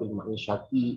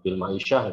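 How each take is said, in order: First: The last word ends with its final vowel sounded. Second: The last word ends without its final vowel. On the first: This shows attention to the final case ending for practice. "biar Anda ada perhatian terhadap" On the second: This is acceptable in ordinary reading. "menghilangkan harokat akhirnya gitu"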